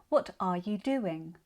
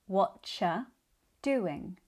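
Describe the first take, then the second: First: Every word is said in full. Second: What and you merge into whatcha.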